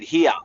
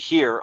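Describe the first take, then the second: First: It rhymes with 'ear', with no final r. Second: It rhymes with 'rear', with a final r. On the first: "Aussies say it here, uh, like ear" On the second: "the Americans say here like rear"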